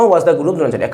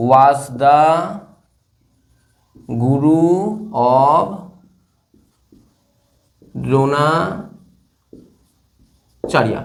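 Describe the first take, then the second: First: Said in the usual way. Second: Very slow, long gaps between words; drawn-out dictation. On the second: Shown as a demonstration. Teacher writing the answer for students, drawn-out dictation. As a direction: dictate word by word at writing speed.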